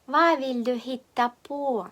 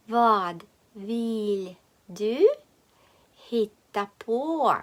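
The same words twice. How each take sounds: First: "Hva vil du hitte på" run together, no d in "Hva"; easy connected speech. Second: "Vad vill du hitta på" slowly, d sounded in "Vad"; slow word-by-word. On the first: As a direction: say "Hva vil du hitte på" fluently as one phrase. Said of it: "Так легше просто вимовляти". («Hva vil du hitte på» злито, без «д») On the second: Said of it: "Повторюємо вголос". («Vad vill du hitta på» повільно, по словах) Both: Shown as a demonstration.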